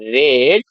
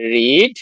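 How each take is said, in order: First: The vowel is a short 'e' sound. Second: The vowel is a long 'ee' sound. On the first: It is the past form. "বানান একই, উচ্চারণ আলাদা" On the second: It is the present form. "রিডের তিনটে form কি হয়"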